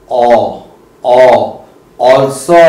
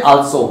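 First: "also" with a long rounded aw, drawn out slowly; correct also. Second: Also said as a plain "also" with a flat o, the wrong way; the mistaken "also". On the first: Teacher shows the right way to say "also". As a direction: stretch the opening aw sound of "also". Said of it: "it is". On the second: Teacher shows the common wrong way to say "also". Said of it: "it's not also". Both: Shown as a demonstration.

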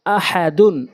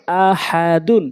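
First: Syllables joined into one word; quick reading. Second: Syllables stretched for learners; slow demo. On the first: Teacher showing learners the word, quickly. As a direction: read it briskly, vowels short. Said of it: "দ্রুতটা উচ্চারণ করতে হবে". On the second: Teacher repeating for learners, slowly. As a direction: take the word slowly, part by part. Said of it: "প্রথমে আমি slow বলছি". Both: Shown as a demonstration.

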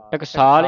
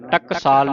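First: ਟਕਸਾਲ with a light, undoubled ਕ; soft pronunciation. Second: ਟਕਸਾਲ pronounced hard rather than lightly; misreading. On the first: Teacher showing the soft reading, ਟਕਸਾਲ lightly articulated. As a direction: say ਟਕਸਾਲ without pressing the ਕ. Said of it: "ਇਹ ਪੋਲਾ ਉਚਾਰਨ ਕਰਨਾ". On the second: Teacher showing what not to read, hard ਟਕਸਾਲ. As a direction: press hard through the ਕਸ of ਟਕਸਾਲ. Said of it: "ਨਹੀਂ ਪੜ੍ਹਨਾ". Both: Shown as a demonstration.

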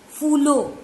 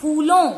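First: फूलो said with a plain oral o at the end; wrong form phoolo. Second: फूलों with a nasal final o, said loud; correct phoolon. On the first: Teacher to pupil, showing the wrong फूलो. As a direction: say फूलो with no nasal. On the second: Teacher to pupil, giving the correct फूलों loudly. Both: Shown as a demonstration. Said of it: "फूलो नहीं".

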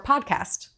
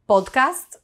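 First: Said in the usual way. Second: Podcast with pure Spanish vowels; Spanish accent. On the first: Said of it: "that's actually different". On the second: Shown as a demonstration. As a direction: say podcast as a Spanish speaker would, "pohd-kahst". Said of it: "we have a Spanish accent".

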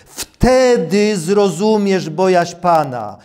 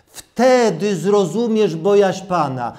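Both takes have the same delivery.

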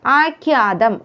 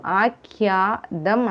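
First: ആഖ്യാതം run together as first offered; wrong consonant. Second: ആഖ്യാതം slow, broken before the last syllable; corrected ending. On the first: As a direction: present ആഖ്യാതം before correcting its ending. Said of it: "ധം അല്ല". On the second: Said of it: "ധം ആണ്". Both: Shown as a demonstration.

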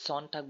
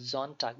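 First: "সনটাগ" started with a sharp S like sun; the wrong way, "সনটাগ" with a hissed S; wrong S sound. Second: "জনটাগ" started with a buzzing Z; Z sound. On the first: Tutor showing students the wrong pronunciation. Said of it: "এস সনটাগ বলা হবে না". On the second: Tutor showing students the correct German sound. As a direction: say "জনটাগ" with Z, not S. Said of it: "জেড এর মতন উচ্চারণ করতে হবে". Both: Shown as a demonstration.

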